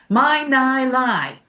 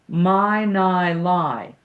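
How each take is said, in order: First: The voice is pushed from the throat. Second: The voice is supported by diaphragmatic breathing.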